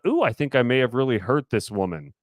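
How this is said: It sounds fun and spicy.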